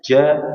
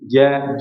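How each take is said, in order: First: The j sound has a hiss through the teeth. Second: The j sound is clean with no hiss. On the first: The speaker calls it wrong. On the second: The speaker calls it right.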